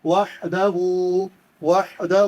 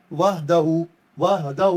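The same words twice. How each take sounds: First: وحدہ with a ha from the throat. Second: وحدہ with a light h, not from the throat; soft h, wrong. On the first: Teacher shows the throat ha in wahda. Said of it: "حلق سے پڑھیں گے". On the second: Teacher imitates people saying wahda with a light h. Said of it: "اکثر لوگ اس کو کیا پڑھتے ہیں؟". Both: Shown as a demonstration.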